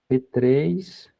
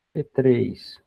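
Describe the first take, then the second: No difference in how they are said.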